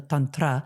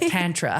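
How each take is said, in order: First: The first vowel is a long open ah. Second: The first vowel is a short flat a. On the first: The speaker calls it right. "the ah is, is like a long ah. So tantra is the proper way to say it" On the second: The speaker calls it wrong. "in America, we have butchered it and it sounds like tantra"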